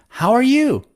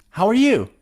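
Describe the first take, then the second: Both takes have the same delivery.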